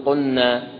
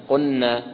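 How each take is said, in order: No difference in how they are said.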